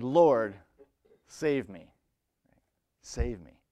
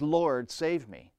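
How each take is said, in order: First: Firm commanding call for help. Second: Slow desperate plea. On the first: Peter in the storm, commanding: save me. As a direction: order the Lord to save him. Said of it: "he said it in a commanding way". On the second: Peter desperate, drowning. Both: Acted.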